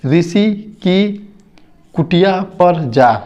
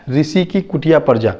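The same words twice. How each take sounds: First: ऋषि की कुटिया पर जा read slowly, word by word; slow reading demo. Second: Said in the usual way. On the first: Shown as a demonstration. Teacher to children, reading ऋषि की कुटिया slowly word by word.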